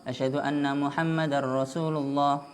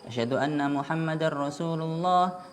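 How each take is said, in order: No difference in how they are said.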